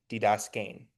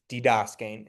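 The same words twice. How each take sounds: First: Didaskein with weight on the closing "ein"; emphasized final diphthong. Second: Didaskein stressed on the middle syllable "das"; didaskein, accent before the final diphthong. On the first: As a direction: say didaskein as di-das-KEIN. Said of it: "I was saying that to, to emphasize what the diphthong was". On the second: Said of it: "if you wanna say it with the accent". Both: Shown as a demonstration.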